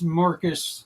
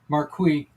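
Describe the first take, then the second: First: The name is said in an anglicized American way. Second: The name is said in its original, non-anglicized way.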